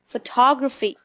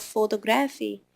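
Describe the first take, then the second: First: Photography said as fuh-TOG-ruh-fee; native-like pronunciation. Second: Photography said as foto-GRAF-ee; wrong stress. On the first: Teacher modelling the native-like word, photography as fuh-TOG-ruh-fee. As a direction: stress TOG in photography, reduced first vowel. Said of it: "make it native, like you wanna say". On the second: Teacher showing a student's error, photography as foto-GRAF-ee. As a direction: stress the third syllable of photography, full O sounds. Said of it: "it is not photography". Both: Shown as a demonstration.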